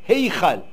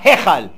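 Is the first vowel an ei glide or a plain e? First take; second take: ei glide; plain e. First: The first vowel is a long ei glide. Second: The first vowel is a short plain e. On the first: The speaker calls it right. "C'est Ei" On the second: The speaker calls it wrong. "Pas Hechal"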